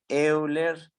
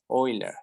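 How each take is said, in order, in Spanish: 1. El nombre se lee según su escritura en español. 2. El nombre se dice de su forma extranjera original. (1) "se escribe Euler" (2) "pero se pronuncia Euler"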